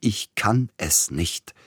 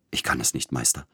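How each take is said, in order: First: Higher, slow, pleading outburst; repeated as an anguished cry; desperate cry. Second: Despairing. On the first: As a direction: break out in despair. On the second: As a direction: sink into helplessness. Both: A narrator's reading. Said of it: "schrie Sapielnikow".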